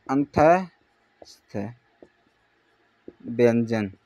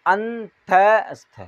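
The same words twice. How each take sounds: First: Slow demo. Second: अंतस्थ drawn out very slowly, syllable by syllable; slow demo. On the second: Teacher sounding out अंतस्थ slowly for students. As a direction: stretch अंतस्थ out slowly so the class hears each part. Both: Shown as a demonstration. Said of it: "जैसे ही नाम से पता चल रहा है".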